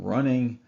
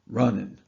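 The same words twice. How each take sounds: First: The ending is said in full with a g. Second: The ending is said without the final g. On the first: "instead of saying running" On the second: "drop that"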